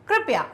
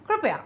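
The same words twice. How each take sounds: Both takes have the same delivery.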